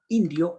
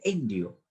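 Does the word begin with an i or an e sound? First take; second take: i sound; e sound. First: The word begins with an i sound. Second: The word begins with an e sound.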